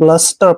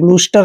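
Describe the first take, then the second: First: The first vowel is a short uh sound. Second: The first vowel is a long oo sound. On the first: The speaker calls it right. "ब्लस्टर पढ़ना है" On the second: The speaker calls it wrong. "आपने ब्लूस्टर नहीं पढ़ना है"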